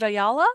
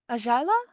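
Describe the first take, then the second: First: The middle consonant is a 'y' sound. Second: The middle consonant is a Spanish 'j' sound.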